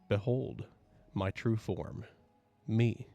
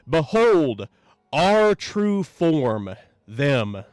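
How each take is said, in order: First: It is said softly. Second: It is shouted with a trailing neigh.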